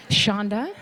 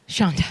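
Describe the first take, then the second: First: "Shonda?" with a rising, searching lift; questioning call. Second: "Shonda" short, with a falling tune; insistent call. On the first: Host checking if this is a Scandal episode, questioning "Shonda?". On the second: Host seeking Shonda Rhimes in the room, insistent falling "Shonda". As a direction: call "Shonda" firmly, dropping at the end. Calls out to her again. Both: Pretend.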